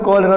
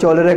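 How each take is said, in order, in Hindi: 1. यह शब्द 'k' ध्वनि से शुरू होता है। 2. यह शब्द 'ch' ध्वनि से शुरू होता है। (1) "सी के साथ एच आ गया ... क हो गया" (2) "उसने चौलेरा का मतलब क्या"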